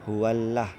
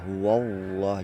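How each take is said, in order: First: The 'l' in Allah sounds light and thin. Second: The 'l' in Allah sounds heavy and full. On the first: The speaker calls it wrong. "jangan dibaca huwallah, salah" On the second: The speaker calls it right. "itu kalimat Allahnya tebal"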